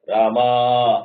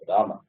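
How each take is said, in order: First: The last vowel is stretched out very long. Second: The last vowel is kept short, not stretched. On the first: Calling a person at a distance. "you're stretching it for a, more than two minutes of time" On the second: Ordinary talking. "you don't stretch it. It is Rama"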